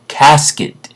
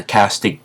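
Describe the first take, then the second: First: "casket" ending in -et, pitched higher; higher, firm "casket" with -et ending; corrected word. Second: "castic" ending in -ic; mispronounced "castic", said in passing; slip of the tongue. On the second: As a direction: stumble into "castic" for casket. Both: Real, not acted. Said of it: "I'm gonna work on my words".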